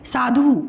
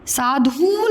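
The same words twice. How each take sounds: First: साधु with a brief final u; short ending. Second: साधु with the final u dragged out; wrong long ending. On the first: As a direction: clip the last vowel of साधु short. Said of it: "उच्चारण में समय कम लगता है". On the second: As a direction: stretch the end of साधु into a long ooo. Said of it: "साधु नहीं बोलते". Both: Shown as a demonstration.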